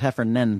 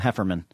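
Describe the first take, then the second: First: The name ends in the sound 'nan'. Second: The name ends in the sound 'man'. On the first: This is the name's real form. The speaker calls it right. "His last name is Heffernan" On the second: This is how others commonly say the name. The speaker calls it wrong. "but people call him Hefferman"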